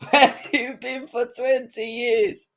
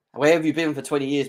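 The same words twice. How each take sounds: First: High, slow mocking repeat through a laugh; laughing taunt. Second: Said in the usual way. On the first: Real, not acted. Taunting Arsenal fans, laughing mock question. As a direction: laugh it back at them.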